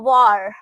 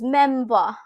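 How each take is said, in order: First: The final R is clearly pronounced. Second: The final R is left silent. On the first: "American English में करोगे तो war" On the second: "British English, which is memva"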